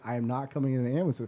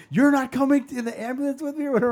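First: Quick, firm reply in own voice; firm retort. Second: Loud, high, fast mock Filipino-accented protest. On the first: Retold or imitated. Kid answering mom about the ambulance, firm refusal. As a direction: answer briskly, close to everyday pitch. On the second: Mom to her kid before the ambulance, indignant Filipino accent. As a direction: imitate an outraged mom's Filipino accent. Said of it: "in her crazy Filipino accent".

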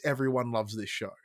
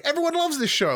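First: Said in the usual way. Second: "Everyone loves this show." high and gushing, stress on "loves"; naive enthusiasm. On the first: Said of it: "Like, no, no, no. In my space". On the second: Retold or imitated. Mocking his own wrestling-bubble view, high gushing enthusiasm. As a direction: gush it like a starry-eyed fan. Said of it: "like, I'm like".

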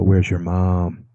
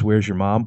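First: Slow, loaded, leading question; ominous dad question. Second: Said in the usual way. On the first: Shown as a demonstration. Dad to his kids, slowly and ominously. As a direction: let it hang like trouble is coming. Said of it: "I look around, I go". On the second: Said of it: "if a dad says".

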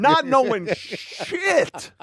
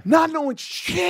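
First: Each word drawn out slowly; drawn-out, heavy stress on "Not knowing shit"; slow emphatic. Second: "Not knowing shit" sung high with a rising end; high singsong. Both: Shown as a demonstration.

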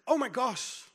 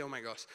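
First: Higher, startled oh my gosh; shocked exclamation. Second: Said in the usual way. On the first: Retold or imitated. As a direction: gasp it out in mock surprise. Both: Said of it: "He didn't say".

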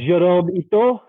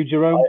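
First: Higher, hammed-up French name; unconvincing French accent; attempted French accent. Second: Said in the usual way. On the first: Shown as a demonstration. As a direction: have a go at a French accent, ending on a questioning lift. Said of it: "with a French accent".

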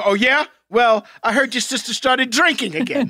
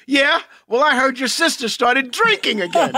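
First: Mock smack talk. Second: Louder, rising jab "Yeah? Well"; cocky smack talk. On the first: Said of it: "And you go". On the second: Retold or imitated. Friend redoing a costar's cocky comeback, louder and rising. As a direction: sneer the comeback with a rise at the end. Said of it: "It's just your delivery".

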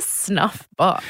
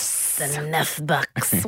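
First: Said in the usual way. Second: Low, slow mock French accent; mimicked French accent. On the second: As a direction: echo her French accent, low and drawn out. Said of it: "butchering this accent".

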